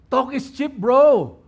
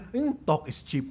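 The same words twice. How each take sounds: First: High, punched taunt with a loud "bro"; taunting critic. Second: Softer, understated dismissive remark; dismissive critic. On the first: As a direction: throw the jab out, louder on "bro". Repeats the critic's jab, heightened. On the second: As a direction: brush it off with a low-key "hmm". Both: Acted.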